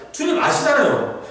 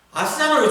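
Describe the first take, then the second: First: 주님 thrown high with a laugh, falling 아시잖아요; half-laughing high plea on 주님; pleading with God. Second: High, falling plea on 아시잖아요; pleading with God. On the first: Job pleads with God, laughing high plea. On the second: Job pleads with God, high pleading. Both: Retold or imitated. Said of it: "계속 그거 하는 거예요".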